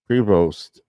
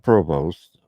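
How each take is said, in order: First: The first syllable sounds like 'pre'. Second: The first syllable sounds like 'pro'. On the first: The speaker calls it right. "not Provost, Prevost" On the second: The speaker calls it wrong. "not Provost"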